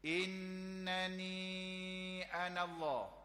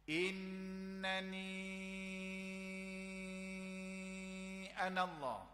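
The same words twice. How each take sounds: First: The drawn-out vowel is held for two counts. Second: The drawn-out vowel is held for six counts. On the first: "Kita baca dua" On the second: "Kita nak baca enam. Oh panjang"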